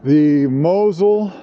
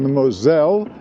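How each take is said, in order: First: The name is said the German way. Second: The name is said the French way.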